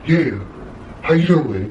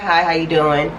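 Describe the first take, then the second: First: It is said in a strange, weird way. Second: It is said in a normal, friendly way.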